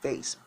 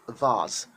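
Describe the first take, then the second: First: It is said with a non-British pronunciation. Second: It is said with a British pronunciation. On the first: The speaker calls it wrong. "British people don't call it vase" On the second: The speaker calls it right. "British people call it vase"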